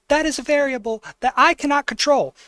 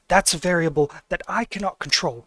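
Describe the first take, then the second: First: The voice is raised to a high pitch. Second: The voice is at a normal speaking pitch.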